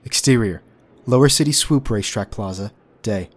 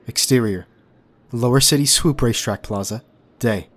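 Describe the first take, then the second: No difference in how they are said.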